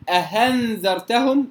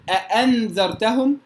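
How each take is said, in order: First: The second hamza is said as an h. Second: The second hamza is a full glottal stop. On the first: "ولا أقول أهنذرتهم" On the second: "لا أقول أأنذرتهم"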